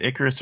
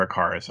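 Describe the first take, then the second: First: Icarus with the stress up front on IK; Icarus, first syllable strong, middle one weak. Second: Icarus with the stress on a long KAR; Icarus, weak start, open "ah" in the middle; stressed on the second syllable. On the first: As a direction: say Icarus as IK-uh-rus. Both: Shown as a demonstration. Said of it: "is it Icarus or Icarus".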